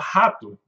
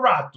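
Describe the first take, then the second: First: The first R is the ordinary Portuguese R. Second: The first R sounds like an English R. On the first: The speaker calls it right. "ele fala rato" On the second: The speaker calls it wrong. "o pessoal do interior não fala rato"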